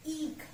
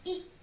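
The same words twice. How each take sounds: First: ईख with the ई stretched long, a held ii sound; drawn-out long ii. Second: ई clipped short and quick, a brief i. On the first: Teacher demonstrating long ई to children, drawn out. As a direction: pull the ई out long in ईख. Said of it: "उसको खींच कर बोल रहे हैं". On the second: Teacher demonstrating short ई to children, quick. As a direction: say ई fast as in इमली. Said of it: "ई से इमली जल्दी से बोला". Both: Shown as a demonstration.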